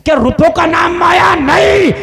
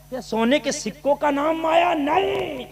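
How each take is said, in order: First: High, full-voiced preacher's shout; shouted rhetorical question. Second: Raised pitch, volume still held back; restrained rhetorical question. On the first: Preacher asking the crowd what wealth is, shouted denial. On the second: Preacher asking the crowd what wealth is, restrained high delivery. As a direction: lift it high but hold back the power. First take, before shouted repeat. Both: Real, not acted.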